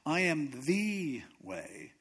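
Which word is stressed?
the. The stress falls on the word the. Everything else is not the way. "That means everything else is not the way"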